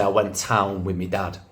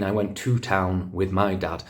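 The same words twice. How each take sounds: First: Put-on quoting a Manchester kid, "me dad"; Manchester dialect. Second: TO and MY picked out in "went to town with my dad"; standard English correction. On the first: Pupil telling teacher about the weekend, Manchester dialect. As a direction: say it like a Manchester schoolkid. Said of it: "the kids would say". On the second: Retold or imitated. Teacher forced to correct a pupil, stressed "to" and "my". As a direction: correct it, saying "to" and "my" distinctly. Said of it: "I would be forced to say".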